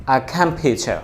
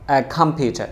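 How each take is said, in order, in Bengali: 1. t টা একটা পরিষ্কার, স্পষ্ট t শব্দ। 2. t টা একটা পরিষ্কার, স্পষ্ট t শব্দ।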